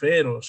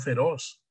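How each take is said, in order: First: The stress is on the first syllable. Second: The stress is on the last syllable. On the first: The speaker calls it wrong. "Tú no dices feroz" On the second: The speaker calls it right. "Que es aguda"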